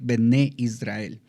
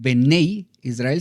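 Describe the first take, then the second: First: The first word ends in a plain 'eh' vowel. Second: The first word ends in an 'ey' glide. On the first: The speaker calls it right. "solamente puede ser correcto decir Bené Israel" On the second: The speaker calls it wrong. "no digas Benei Israel"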